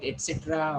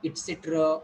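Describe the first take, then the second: First: "et cetera" with open E and full final A; the less correct "et cetera", clear "eh" at the start; common pronunciation. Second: "et cetera" with a close first vowel, like "it"; "et cetera" with short close E and weak ending; taught pronunciation. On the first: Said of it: "or if I call it et cetera". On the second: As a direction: say "et cetera" the corrected way, starting near "it". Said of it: "what happens if I call it et cetera". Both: Shown as a demonstration.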